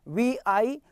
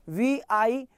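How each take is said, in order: The two takes are said the same way.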